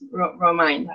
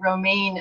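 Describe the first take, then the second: First: The name does not sound like the lettuce. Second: The name sounds like the lettuce romaine. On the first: The speaker calls it right. "So sorry, it's Romine" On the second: The speaker calls it wrong. "I sort of mispronounced your name"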